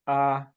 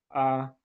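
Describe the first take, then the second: First: The pitch stays mid and level. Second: The pitch stays mid and level.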